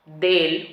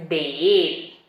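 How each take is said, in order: First: "del" en una sola sílaba; una sola palabra. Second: "de él" con la segunda "e" alargada; dos palabras separadas. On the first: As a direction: une "de" y "el" en "del". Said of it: "una sola palabra". ("del" contraído, una sola palabra) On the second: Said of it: "Es separado". ("de él" separado, con acento en "él") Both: Shown as a demonstration.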